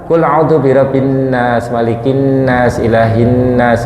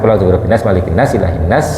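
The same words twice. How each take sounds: First: Each 'nas' is lengthened with a nasal hum. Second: Each 'nas' is rushed and clipped short. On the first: The speaker calls it right. "minimal dibaca ngoten" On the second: The speaker calls it wrong. "Yang penting jangan"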